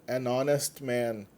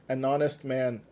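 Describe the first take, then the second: The two takes are said the same way.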